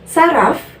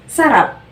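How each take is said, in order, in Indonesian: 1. Kata ini diakhiri bunyi f. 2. Kata ini diakhiri bunyi p.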